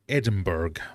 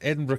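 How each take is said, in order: First: It is said in an American accent. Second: It is said in a British accent.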